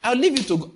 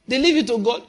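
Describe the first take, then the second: First: Said in the usual way. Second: Incredulous. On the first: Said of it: "And say". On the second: Acted.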